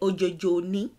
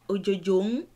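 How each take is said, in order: First: The last word is 'ni' with a vowel. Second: The last word is a bare syllabic 'n'. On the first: "but they say" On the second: "it sounds like"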